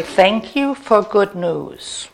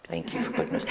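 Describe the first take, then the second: First: Said in the usual way. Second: Very soft, under the breath; whispered affirmation. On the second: Shown as a demonstration. Said to oneself as the phone rings, whispered. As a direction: repeat it privately in a whisper.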